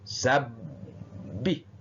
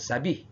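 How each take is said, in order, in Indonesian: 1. Huruf b dobel dan ditahan selama dua ketukan. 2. Huruf b tunggal dan tidak ditahan. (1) "jadi itu ditekan" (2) "bukan sabih ya"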